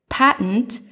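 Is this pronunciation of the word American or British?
American. The word is said with an American pronunciation. "Mine is simply the American pronunciation"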